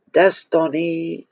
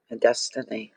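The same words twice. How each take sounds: First: "Destiny" drawn out slowly and a bit higher; savoured word. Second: Said in the usual way. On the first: Shown as a demonstration. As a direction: linger on "Destiny" with awe.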